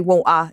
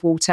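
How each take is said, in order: First: "water" with no T and no final R; dropped T and R. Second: "water" with its T sounded; T pronounced. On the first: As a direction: drop the T and the R in "water". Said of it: "I drop all the, the R's and the T's". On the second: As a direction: say the T in "water" carefully. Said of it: "instead of water". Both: Shown as a demonstration.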